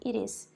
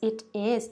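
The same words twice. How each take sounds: First: The two words are run together and reduced. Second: The two words are said separately and clearly. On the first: The speaker calls it right. "quando o nativo falar assim" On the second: The speaker calls it wrong. "se eu te ensinar assim"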